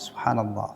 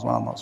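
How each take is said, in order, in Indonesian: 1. Diucapkan lambat dan jelas. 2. Diucapkan sangat cepat dan tidak jelas. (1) "Jelas terucap kalimat sempurna" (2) "kelihatan cepat banget"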